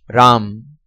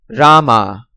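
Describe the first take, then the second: First: The word ends on a consonant, no final vowel. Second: The word ends with a pronounced final vowel. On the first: "Hindi pronunciation" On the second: "Foreigner's pronunciation"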